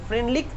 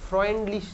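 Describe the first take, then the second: First: The name ends with a 'k' sound. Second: The name ends with an 'sh' sound. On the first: "ফ্রয়েন্ডলিশ অ্যাকচুয়ালি হচ্ছে ফ্রেন্ডলিক" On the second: "তোর বইয়ের মধ্যে নামটা একটা অদ্ভুত কিছু একটা নাম দিয়েছে"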